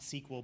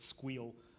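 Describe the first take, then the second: First: It is said in two syllables, like see-kwel. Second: It is said in one syllable, like skweel. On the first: The speaker calls it wrong. "not sequel" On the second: The speaker calls it right. "should be pronounced ... squeal"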